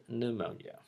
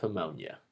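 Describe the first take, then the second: First: "pneumonia" with silent P, new-MOAN-ya; correct pneumonia. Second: "pneumonia" said wrongly, starting with a P sound; mispronounced pneumonia.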